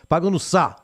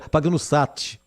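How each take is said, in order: First: The final T is left silent. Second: The final T is clearly pronounced. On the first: The speaker calls it right. "não fala um T" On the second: The speaker calls it wrong. "Aí fica meio caipira, aí fica ruim"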